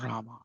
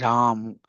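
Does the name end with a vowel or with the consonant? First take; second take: vowel; consonant. First: The name ends with a final vowel sound. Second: The name ends on the final m consonant. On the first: The speaker calls it wrong. "It's not Rama" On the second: The speaker calls it right. "Hare Ram"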